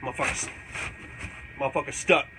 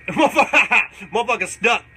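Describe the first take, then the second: First: Said in the usual way. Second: Laughing shout. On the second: Retold or imitated. Shouting at the lizard he hit with a dart. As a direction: belt it out with a laugh. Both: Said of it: "I said".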